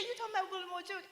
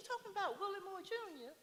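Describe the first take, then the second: First: Imitating Iyanla laughing. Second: Imitating Iyanla. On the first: Iyanla recognising the name, higher laughing fast. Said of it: "And she said". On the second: Quoting Iyanla, a much higher surprised question. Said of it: "And she says".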